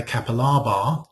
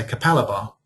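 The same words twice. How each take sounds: First: "Kapalaba" as KAP-a-LAH-bah; long open "lah" in "Kapalaba"; British pronunciation. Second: "Kapalaba" as kuh-PAL-uh-buh; Australian pronunciation. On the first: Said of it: "the British voice would say". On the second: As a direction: stress the second syllable of "Kapalaba", short a. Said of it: "Aussie voice would say". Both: Shown as a demonstration.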